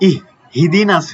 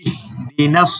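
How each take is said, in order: First: An extra 'hi' syllable follows the first 'ih'. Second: The 'ih' runs straight into 'dinas' without extras. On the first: The speaker calls it wrong. "অনেকে দেখা যাচ্ছে ইহ হিদিনাস হয়ে যায়" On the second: The speaker calls it right. "এখানে হবে কি শুধু ইহ দিনাস"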